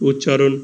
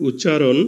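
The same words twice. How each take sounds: No difference in how they are said.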